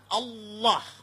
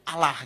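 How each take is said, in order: First: It is said heavily, with Arabic-influenced sounds. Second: It is said lightly, in plain Indonesian style.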